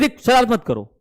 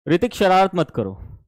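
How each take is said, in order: First: It is said sternly, with strong expression. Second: It is said casually, without expression.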